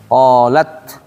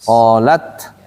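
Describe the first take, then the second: No difference in how they are said.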